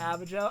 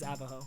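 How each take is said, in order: First: The middle consonant is a J sound. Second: The middle consonant is an H sound. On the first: This is how the speaker has always said it. The speaker calls it wrong. "I've always said Avajo" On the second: This is what the speaker believes is the actual form. The speaker calls it right. "I think it is Avaho. I think that would be correct"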